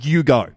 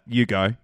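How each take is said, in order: First: It is said in a firmer, insistent way. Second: It is said in a gentle, plain way.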